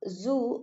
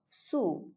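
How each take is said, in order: First: The word begins with a buzzing z sound. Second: The word begins with a hissing s sound.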